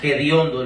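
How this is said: The word begins with a raspy throat sound. This is how people say it in the speaker's homeland. "lo pronuncian con la J, hediondo, lo hacen así"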